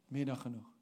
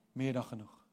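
No difference in how they are said.

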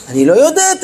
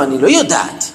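First: Higher, firmer retold protest; insistent admission. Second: Low-pitched, mild admission of not knowing; retold teacher's low, tentative answer; unsure admission. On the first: Teacher answers the pupil who keeps pressing, insistent admission. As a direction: pitch lifts as the teacher insists. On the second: Teacher answers a curious pupil about the Temple, unsure admission.

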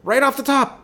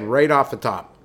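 First: Much higher, emphatic repeat; high incredulous repeat. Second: Said in the usual way. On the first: Retold or imitated. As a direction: repeat it in high-pitched disbelief.

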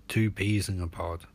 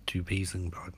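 First: Said in the usual way. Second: Softer, near-whispered repeat; low, confiding echo; hushed echo. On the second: A narrator's reading. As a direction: let the repeat drop away almost to a whisper.

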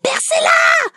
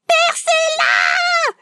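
First: A sharp high shout in labour pain; screaming. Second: A long, slow, high scream; drawn-out scream. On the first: Woman in labour screams at the midwife to pierce, shouting. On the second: Woman in labour begs the midwife, long slow scream. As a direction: stretch the scream out in agony. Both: Retold or imitated. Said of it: "je commence à hurler".

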